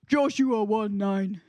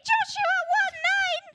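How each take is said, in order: First: It is said in a deep voice. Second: It is said in a squeaky voice.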